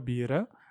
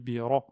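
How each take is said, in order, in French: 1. Le r est léger et simple. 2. Le r est lourd et emphatique. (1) "On ne dit pas" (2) "c'est un ra emphatique"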